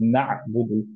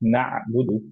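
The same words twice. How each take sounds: The two takes are said the same way.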